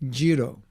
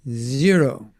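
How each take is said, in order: First: It is said the Indian way, like jiro. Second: It is said with a standard English z.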